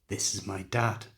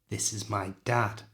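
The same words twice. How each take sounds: No difference in how they are said.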